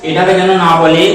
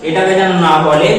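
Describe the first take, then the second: The two takes are said the same way.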